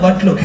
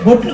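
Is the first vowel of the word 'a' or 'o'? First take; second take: a; o. First: The first vowel is an a sound. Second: The first vowel is an o sound. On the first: The speaker calls it right. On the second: The speaker calls it wrong. "బొట్లు కాదు"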